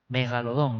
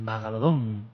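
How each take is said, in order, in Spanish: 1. La primera vocal tiene sonido de 'e'. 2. La primera vocal tiene sonido de 'a'. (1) "Megalodón, no Magalodón" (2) "no Magalodón"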